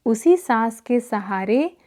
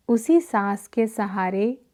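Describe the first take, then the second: No difference in how they are said.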